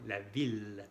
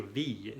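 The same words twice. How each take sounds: First: "ville" with a clear, held L at the end; exception pronunciation. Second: "ville" said as "viy", final double L as a Y glide; wrong pronunciation. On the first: Teacher modelling the exception for learners, "ville" with sounded L. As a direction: say "ville" ending on a firm L, no Y. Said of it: "es una excepción". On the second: Teacher showing learners what not to say, mispronounced "ville". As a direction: say "ville" with a Y sound instead of L. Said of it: "no vamos a decir ville". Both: Shown as a demonstration.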